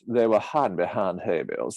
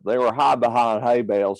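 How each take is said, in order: First: It uses a genteel, old-plantation Southern accent. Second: It uses a rough, rural backwoods Southern accent. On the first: "There is the Gone with the Wind Southern accent" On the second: "And then there's the Deliverance Southern accent"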